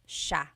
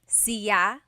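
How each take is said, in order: First: It begins with an sh sound. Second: It begins with a plain s sound. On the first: This is how the central Tagalog region says it. "in the Tagalog region, it's siya" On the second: This is how some other regions say it. "Some regions say siya"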